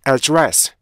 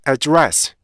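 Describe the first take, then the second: Both takes have the same delivery.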